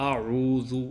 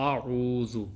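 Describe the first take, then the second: The two takes are said the same way.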